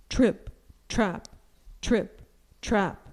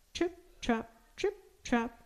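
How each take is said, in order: First: Weighty, spaced-out trip-trap in a full voice; big goat's solid, deliberate steps; heavy hoofsteps. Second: High, soft, crisp little trip-trap; light, dainty taps for tiny hooves; small high hoof sounds, softly spoken; tiny hoofsteps. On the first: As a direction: plod out each word like heavy hooves. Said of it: "went his heavy hooves". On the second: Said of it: "went his tiny hooves". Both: A narrator's reading.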